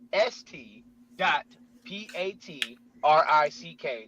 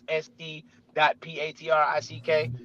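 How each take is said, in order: First: The letters are spelled out slowly and deliberately. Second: The letters are spelled out at normal speed.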